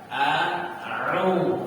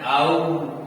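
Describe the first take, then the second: First: A throat sound separates the two vowels. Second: The two vowels run together without a throat sound. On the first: The speaker calls it right. "Perbaikan ucapan" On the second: The speaker calls it wrong. "tidak membedakan pelafalan antara huruf hamzah dengan huruf ain, sehingga bacanya au"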